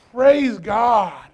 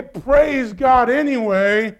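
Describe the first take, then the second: First: Shouted Praise God. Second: Said in the usual way. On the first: Shown as a demonstration. Preacher showing the congregation how to praise God in hard times, shouting. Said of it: "we gotta scream the loudest". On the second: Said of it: "and we say".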